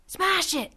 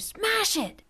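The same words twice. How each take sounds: First: High yelled order to smash it; screamed command. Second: Put-on very high shrill-free yell, different boy's voice; screamed again by another boy. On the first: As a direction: shout it at your friend urgently. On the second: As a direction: scream it even higher, as a second kid. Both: A narrator's reading. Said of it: "Rusty and Vaco screamed".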